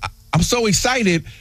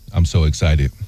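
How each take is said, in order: First: It is said with excitement. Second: It is said flat, without emotion.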